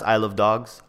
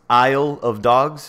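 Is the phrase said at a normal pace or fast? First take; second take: fast; normal. First: It is said fast, with the words run together. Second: It is said at a normal, careful pace.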